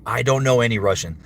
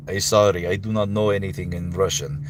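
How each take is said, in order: First: Said in the usual way. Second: Halting-grammar Russian accent; put-on Russian accent. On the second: Shown as a demonstration. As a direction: apologise in a thick Russian accent. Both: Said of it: "Russian accent".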